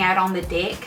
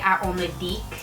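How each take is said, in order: First: The word 'deck' has a plain open e vowel. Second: The word 'deck' has a closer, i-like vowel. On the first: "instead of sitting out on the deck" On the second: "they would sit out on the deck"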